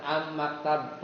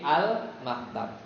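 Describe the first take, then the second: First: "am maktab" with the l turned into a held m; wrong assimilated article. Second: "al maktab" with a distinct l before the m; clear article l. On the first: Teacher showing students how not to read it, "am maktab" with no l. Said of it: "Kalau mim kan bukan am maktab". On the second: Teacher correcting the reading for students, "al maktab" with a clear l. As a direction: sound the l fully, then start "maktab". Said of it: "tapi al maktab". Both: Shown as a demonstration.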